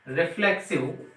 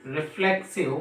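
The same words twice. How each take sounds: The two takes are said the same way.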